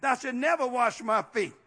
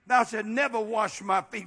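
First: "never" punched and falling; Peter's refusal with the weight on "never"; stress on never. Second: "Thou" leaned on at the start; Peter's refusal with weight on "Thou"; stress on thou. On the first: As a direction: lean into "never" as a flat refusal. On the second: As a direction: hit "Thou" first, the rest even. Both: Shown as a demonstration. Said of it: "Watch this now".

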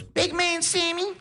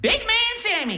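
First: Slow, very high, rising comic croon; Cat Williams. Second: Very high Def Jam comic squeal; Cat Williams. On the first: Grandma grabs his face at goodbye, slow squeaky Def Jam-style address. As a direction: imitate grandma calling him in drawn-out falsetto. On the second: Grandma on morphine greets grandson, high Def Jam-style exclamation. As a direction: imitate grandma hollering a hello in squeaky comic slang. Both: Retold or imitated. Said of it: "she was talking in a crazy accent, like, uh, like Def Jam comedy, like Cat Williams".

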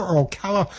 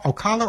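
First: Ocala said oh-KAL-a, "a" as in cat; Ocala with flat "a". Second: Ocala said oh-KAH-la, open "ah" in the middle. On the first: Host offering the other Ocala, "a" as in cat. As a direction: say Ocala with the short "a" of pal. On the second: Host unsure of a caller's town, Ocala with "ah". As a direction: say Ocala with a broad "ah" second syllable. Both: Shown as a demonstration. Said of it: "I'm such a New Yorker".

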